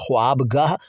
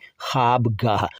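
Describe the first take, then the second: First: The first syllable has a w sound. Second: The first syllable has no w sound. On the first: This is how the word is written. "ख्वाबगाह लिखेंगे" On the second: This is how the word is spoken. "बोलेंगे ख्वाबगाह"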